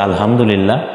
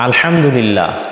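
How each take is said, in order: First: The h is a light, plain sound. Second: The h is a heavy, throaty sound. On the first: All filth is for God. The speaker calls it wrong. "সমস্ত আবর্জনা নোংরামি যা আছে সব আল্লাহ তাআলার জন্য" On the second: All praise is for God. The speaker calls it right. "প্রশংসা হচ্ছে আল্লাহ তাআলার জন্য"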